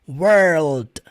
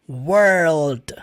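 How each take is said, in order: First: The word ends with a soft d sound. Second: The word ends with a soft d sound.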